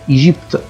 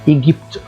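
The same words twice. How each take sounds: First: The g is a soft zh sound. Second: The g is a hard g sound. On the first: The speaker calls it right. "نطقت الج ج وليس الجا" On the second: The speaker calls it wrong. "ما قلتش مثلا ايه ايجيبت، خطأ"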